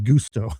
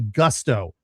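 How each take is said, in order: First: It is said with an Italian-sounding accent. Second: It is said in a plain American accent. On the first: The speaker calls it wrong. "I was putting a little too much uh, Italian emphasis on it" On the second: The speaker calls it right. "probably Gusto"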